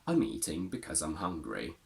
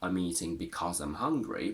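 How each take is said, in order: First: The word 'because' is reduced and weak. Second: The word 'because' is said in full. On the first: The speaker calls it right. "We would say" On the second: The speaker calls it wrong. "we wouldn't really say"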